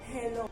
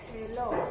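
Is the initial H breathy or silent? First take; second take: breathy; breathy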